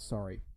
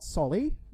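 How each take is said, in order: First: It is said with a plain r sound. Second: It is said with an l sound, a mock accent. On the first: The speaker calls it right. "just regular, plain old sorry" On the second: The speaker calls it wrong. "as Asians say"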